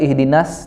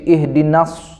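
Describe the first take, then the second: First: The s is a plain, light s. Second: The s is a heavy, emphatic s. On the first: The speaker calls it wrong. "Bukan ihdinas" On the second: The speaker calls it right. "tapi ihdinas, pakai sod"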